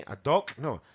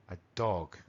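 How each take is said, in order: First: Dog ending in a hard k; wrong dog with K. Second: Dog with a soft voiced g at the end; correct g. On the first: Teacher mocking the k ending students use. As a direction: clip "dog" off with a k, as an error. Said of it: "tampoco quiero escuchar una K". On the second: Teacher giving the right version after the wrong one. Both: Shown as a demonstration.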